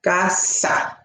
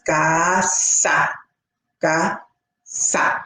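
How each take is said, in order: First: "ga, sa" run together smoothly with no pause; blended syllables. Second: "ga" and "sa" each said alone, with a clear pause between them; separate syllables. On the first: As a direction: blend ga and sa into one word. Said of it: "So then they blend". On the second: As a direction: sound out ga and sa as two separate beats. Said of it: "words are sounded out by syllables". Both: Shown as a demonstration.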